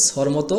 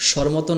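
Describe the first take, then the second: First: "স্বরমতো" begun with a crisp s, "sor moto"; the recommended s pronunciation in "স্বরমতো"; s, the required sound. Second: "স্বরমতো" begun with sh, "shor moto"; the rejected sh pronunciation in "স্বরমতো"; sh, the wrong sound. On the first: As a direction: say "স্বরমতো" with an s, not sh. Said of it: "উচ্চারণ করতে হবে". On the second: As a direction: say "স্বরমতো" with an sh at the start. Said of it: "না করে". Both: Shown as a demonstration.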